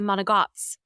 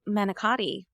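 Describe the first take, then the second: First: The word is said in a shortened form. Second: The word is said in its full form. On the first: This is what the speaker's family calls it. "We actually say monogots" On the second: This is what most other people call it. "we don't say manicotti"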